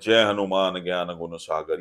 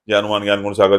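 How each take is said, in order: First: It is recited slowly and calmly. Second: It is recited quickly, without feeling.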